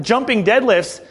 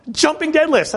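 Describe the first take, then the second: First: Said in the usual way. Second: Incredulous. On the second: Retold or imitated. Disbelief at silly exercise.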